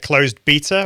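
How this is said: Beta is said the British way. "as we say in the U K"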